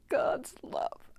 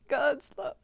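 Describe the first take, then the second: First: God's love whispered, voice gone from emotion; choked whisper. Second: God's love said aloud again, higher, pushing through emotion; emotional retry. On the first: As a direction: barely whisper God's love through tears. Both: Real, not acted. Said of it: "Sorry, I'm so emotional".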